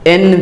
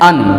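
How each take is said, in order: First: It is said with a full 'e' vowel. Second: It is said with a short 'uh' vowel. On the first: The speaker calls it wrong. "एन भी बोल सकते हैं" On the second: The speaker calls it right. "अन बोलना ज्यादा बढ़िया है"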